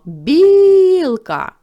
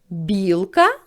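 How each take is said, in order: First: It is called out loudly to someone. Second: It is asked back with a questioning tune. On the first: "Або покличемо" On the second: "Перепитаємо це слово"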